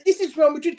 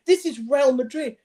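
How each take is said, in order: First: Higher and louder, amazed at the goal; half-acted amazed cry; retold excited disbelief. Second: "This is Real Madrid" said slowly, higher, weight on "This"; lightly acted, savouring "This is Real Madrid"; slow emphatic disbelief. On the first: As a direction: blurt it out as a stunned fan. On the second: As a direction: spell out "This is Real Madrid" slowly, each word landing. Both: Retelling his reaction to the goal.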